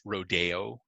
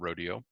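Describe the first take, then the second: First: It is said the local way. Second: It is said the non-local way. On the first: The speaker is truly from the area. The speaker calls it right. "if you're truly from Salinas, it's rodeo" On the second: The speaker is not from the area. The speaker calls it wrong. "not rodeo"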